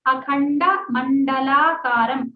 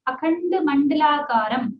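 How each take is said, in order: First: अखंड मंडलाकारम slow, अखंडा with final a; chanted slowly as a model; full vowel shown. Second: अखंड with the ड cut off, no final a; the common wrong reading; clipped consonant. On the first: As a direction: sound the a after ड in अखंड. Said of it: "हम उसको कैसे पढ़ रहे हैं". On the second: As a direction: drop the vowel after ड in अखंड. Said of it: "ड बोल के छोड़ देंगे". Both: Shown as a demonstration.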